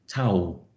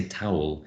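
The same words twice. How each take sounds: First: "towel" squashed toward one syllable, Cockney style; East London Cockney accent. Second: "towel" in careful RP, both syllables sounded; very BBC received pronunciation "towel". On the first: Retold or imitated. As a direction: imitate a Cockney saying "towel". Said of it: "East London". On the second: Shown as a demonstration. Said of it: "with my received pronunciation".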